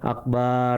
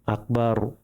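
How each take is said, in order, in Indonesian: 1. Vokal kedua kata itu dibaca panjang. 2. Vokal kedua kata itu dibaca pendek. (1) "Bukan akbar, itu salah" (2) "Akbarnya pendek"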